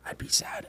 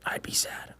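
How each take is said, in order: First: Soft whispered repeat. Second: Soft whispered thought. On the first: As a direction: whisper it again, sadder. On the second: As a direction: breathe it to yourself. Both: Retold or imitated. Owner whispering about shooting his dog. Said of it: "I was like".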